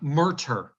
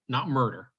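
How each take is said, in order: First: The middle consonant is a T sound. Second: The middle consonant is a D sound. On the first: The speaker calls it right. "Murter, not murder" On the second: The speaker calls it wrong.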